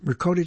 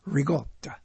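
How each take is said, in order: First: The middle consonant is a k sound. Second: The middle consonant is a g sound. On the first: It is read phonetically from the spelling. The speaker calls it wrong. "They say ricotta cheese, right? Ricotta cheese, they say" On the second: It follows the heritage pronunciation. The speaker calls it right. "But it's rigotta"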